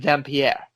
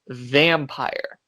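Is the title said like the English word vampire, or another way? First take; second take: another way; English vampire. First: It is said following its unusual spelling. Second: It sounds like the ordinary English word vampire. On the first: "some people pronounce it pronounce it Vampire because of the way it's spelled" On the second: "It is a film called Vampire"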